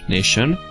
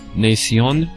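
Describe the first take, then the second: First: The ending sounds like 'shun'. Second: The ending sounds like 'see-on'. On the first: "instead of Shon" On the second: "you can pronounce as uh, Sion instead"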